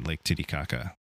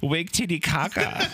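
First: It is said in her normal adult voice. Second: It is said in a childish baby voice.

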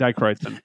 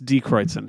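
First: The first syllable sounds like 'die'. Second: The first syllable sounds like 'dee'. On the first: The speaker calls it wrong. "I keep saying Dichroidsen. I just like the way it sounds better" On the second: The speaker calls it right. "I keep saying it wrong. It's Dichroidsen"

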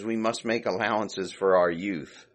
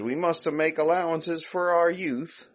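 First: It is spoken in a plain, neutral accent. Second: It is spoken with an Italian-sounding accent. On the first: The speaker calls it right. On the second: The speaker calls it wrong.

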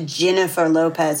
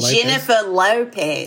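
First: It is said with a slight Australian accent. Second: It is said with a strong Australian accent. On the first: "and then you get to [name]" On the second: "and then you get to [name]"

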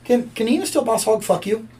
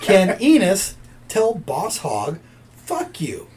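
First: The question is said at a quicker pace. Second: The question is said at a slower pace.

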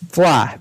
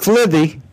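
First: The final 'the' ending is silent. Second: The final 'the' ending is pronounced aloud. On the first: The speaker calls it right. "The T-H-E is silent" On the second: The speaker calls it wrong. "It's not Flythe"

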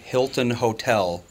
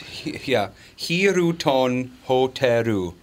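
First: The name is said with English pronunciation. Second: The name is said with Japanese-style syllables. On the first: A local driver would not understand this. The speaker calls it wrong. "not Hilton Hotel" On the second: This is how a local driver would understand it. The speaker calls it right. "it's Hiroton Hoteru"

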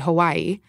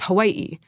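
First: The vowels run together without a glottal stop. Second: A glottal stop breaks the vowels apart. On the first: The speaker calls it wrong. "Most people say Hawaii" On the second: The speaker calls it right. "but it is Hawaii. ... There's a glottal stop"

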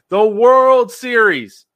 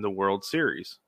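First: The phrase is exclaimed with loud excitement. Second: The phrase is said plainly, without excitement. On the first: The speaker calls it right. "You have to exclaim it" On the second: The speaker calls it wrong. "I said it wrong the first time"

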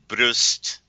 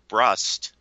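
First: It is said with a German pronunciation. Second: It is said with an American pronunciation.

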